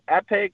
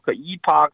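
First: It is said the American way, like epic. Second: It is said the Canadian way, like ee-pock.

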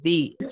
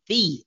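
First: The word is said weakly, without force. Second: The word is said with strong force. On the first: The speaker calls it wrong. "You can't say the" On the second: The speaker calls it right. "like you mean it"

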